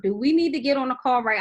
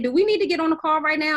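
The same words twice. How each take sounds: First: Said in the usual way. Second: Faster and louder, pushing for action; urgent eager question. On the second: Retold or imitated. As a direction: fire it off like a call to action. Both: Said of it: "I really said".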